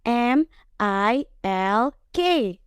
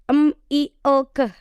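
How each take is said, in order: First: Each letter is said by its alphabet name. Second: Each letter is said as its short sound. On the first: This reading does not give the spoken word. The speaker calls it wrong. "kalau baca milk pakai ejaan yang itu" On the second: This reading comes close to the spoken word. The speaker calls it right. "Jadi cara bacanya gini"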